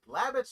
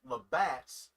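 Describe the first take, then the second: First: It is said with a Southern-style pronunciation. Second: It is said with a standard, non-Southern pronunciation. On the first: The speaker calls it wrong. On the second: The speaker calls it right.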